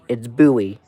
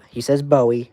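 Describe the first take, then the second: First: The name is pronounced as local people do. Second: The name is pronounced as the synthetic voice does. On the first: The speaker calls it right. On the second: The speaker calls it wrong. "he says"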